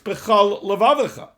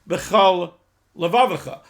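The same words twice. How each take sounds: First: The two words flow on without a pause. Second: There is a pause between the two words. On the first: The two words form one phrase, with your whole heart. The speaker calls it right. "It's bechol levavacha" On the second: The two words are treated as separate. The speaker calls it wrong. "we're not putting a comma between bechol and levavacha"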